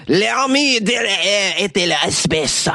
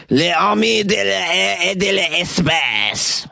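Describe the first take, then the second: First: Slow, higher French "L'armée de l'air et de l'espace" in a second take; French pronunciation again. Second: Slow French "L'armée de l'air et de l'espace", each word drawn out; careful, slow French "L'armée de l'air et de l'espace"; French pronunciation. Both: Shown as a demonstration. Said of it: "I'm gonna say that again".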